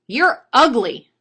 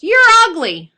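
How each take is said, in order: First: Loud, slow, raised parrot voice; high-pitched, drawn-out bird heckle; insulting parrot. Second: Very loud, high parrot yell; full-volume, high bird squawk. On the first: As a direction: draw out the insult loudly. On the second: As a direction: yell the insult as loud as you can. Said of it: "as loud as he can, the bird yells". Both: Acted.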